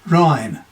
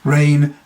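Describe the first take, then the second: First: The vowel sounds like the 'eye' in my. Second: The vowel sounds like the 'ay' in day.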